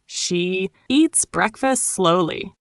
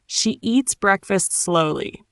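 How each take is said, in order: First: Slow, word by word; slow repeat. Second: Said in the usual way. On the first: Shown as a demonstration. Teacher says it again for learners, slowly. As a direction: hold "she" and space out each word.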